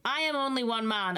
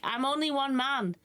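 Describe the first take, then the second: First: "I am" said in full, with stress on "am"; emphatic protest. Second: Higher-pitched plaintive complaint; overwhelmed protest. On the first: Poor Arthur repeats his protest, stressing "am". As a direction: insist on "am", each word separate. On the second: Poor Arthur alone with too much work, plaintive. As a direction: plead being overworked, voice raised in pitch. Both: Acted.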